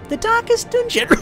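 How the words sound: It is said in a squeaky, high-pitched voice. The speaker calls it wrong. "I wonder if a high-pitched voice works as well"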